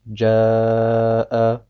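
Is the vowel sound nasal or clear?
clear. The long vowel is free of nasal sound. The speaker calls it right. "müssen rein sein von dem Nasallaut"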